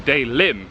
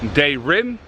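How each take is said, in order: First: The middle consonant is an L sound. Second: The middle consonant is an R sound. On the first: "the il in English is an R and an L" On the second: "the il in English is an R and an L"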